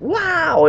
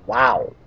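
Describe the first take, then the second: First: It sounds amazed and impressed. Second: It sounds doubtful and unimpressed.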